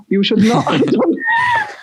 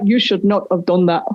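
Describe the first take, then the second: First: Very high, drawn-out mock scolding; exaggerated self-reproach. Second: Low-pitched retold scolding; self-reproach. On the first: Speaker regretting the accent bit, mock-horrified reproach. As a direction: stretch out the regret, pitched way up. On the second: Speaker regretting the accent bit, low self-reproach. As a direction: scold yourself in a lowered voice.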